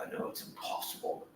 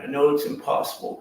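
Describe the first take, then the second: First: "I know it's impossible" breathed without voice; whispered. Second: Said in the usual way. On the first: Real, not acted. Praying alone in the cell, whispered repeat. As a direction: drop to a bare whisper.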